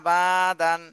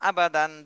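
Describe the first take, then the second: First: The vowel after b is drawn out long. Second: The vowel after b is kept short. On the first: The speaker calls it wrong. "বাতে টান দিয়ে দেবে, তাহলে এটা কিন্তু ভুল হয়ে যাবে" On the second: The speaker calls it right. "দ্রুত"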